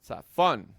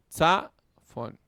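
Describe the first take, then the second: First: "Tsa, fon" joined up, "fon" loud and falling; light "Tsa", strong long "fon"; stress on final syllable. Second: Teacher splitting "Tsa, fon" with force on "Tsa"; syllables sounded apart. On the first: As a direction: say it as one word, punching "fon". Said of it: "recibe el acento". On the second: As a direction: punch "Tsa", pause, let "fon" drop. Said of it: "que es el largo". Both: Shown as a demonstration.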